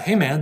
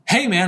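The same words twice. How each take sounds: First: It is said with flat, uninterested energy. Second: It is said with lively, excited energy. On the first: The person is not really into the game. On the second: The person is genuinely into the game.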